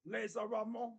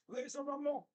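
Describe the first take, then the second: First: Said in the usual way. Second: "Laser Ramon" in a mock French accent, ending "Ramo" with no n; a hammed-up French accent with a laugh; mock French waiter saying "Laser Ramon". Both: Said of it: "sounds funnier in like a French accent".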